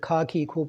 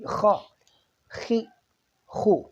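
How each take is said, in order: First: The first consonant sounds plain, without friction. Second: The first consonant sounds harsh and throaty. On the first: The speaker calls it wrong. "आमतौर पर इसको खा खी खू पढ़ देते हैं" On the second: The speaker calls it right. "ये आवाज़ ज़रूर आनी चाहिए इसकी"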